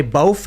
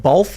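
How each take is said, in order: First: "bof" with an f sound at the end; New York pronunciation. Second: Said in the usual way. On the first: Shown as a demonstration. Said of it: "and you say "bof" instead of "both". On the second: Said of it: "instead of "both".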